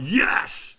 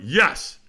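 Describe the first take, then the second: First: Higher, rougher mock cheer with extra push; stronger retold yes. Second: Louder yes at ordinary pitch; first retold yes. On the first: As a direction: reenact a more forceful yes. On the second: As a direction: reenact a firm but held-back cheer. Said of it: "Squeeze your fist and say yes".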